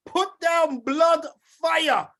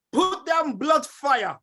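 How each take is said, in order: First: Louder shouted call. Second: Slow, drawn-out call to the crowd; slow rallying call. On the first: Host urges listeners again, hyped shout. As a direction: bellow it so the crowd answers. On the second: Host asks listeners to post, slow call. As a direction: drag the words out as a summons. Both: Real, not acted. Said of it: "I wanna see some blood fire".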